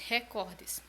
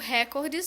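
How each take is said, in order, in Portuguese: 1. A tônica está na segunda sílaba. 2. A tônica está na primeira sílaba. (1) "mais entonação para a segunda, é, segunda sílaba" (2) "eu falei a princípio recordes"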